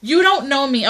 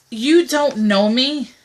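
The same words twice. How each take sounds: First: Higher, sharper put-down; indignant retort. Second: Slow, deliberate put-down; pointed retort. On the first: Woman answering a presumptuous guy on a dating site, higher and indignant. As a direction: snap it back at him, offended. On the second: Woman answering a presumptuous guy on a dating site, slow and pointed. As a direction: spell it out slowly to a stranger. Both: Pretend. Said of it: "one thing I have to say".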